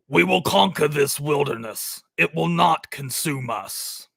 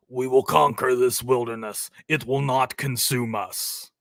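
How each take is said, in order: First: Lightly voiced solemn vow, a bit slowed; hint of a grave puritan father; understated solemn movie line; movie character quote. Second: Lower, lightly voiced solemn vow; a hint of a grave father figure; mild attempt at the movie voice; second try at the quote. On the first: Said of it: "This dude's voice is just insane". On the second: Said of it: "I can't do the accent".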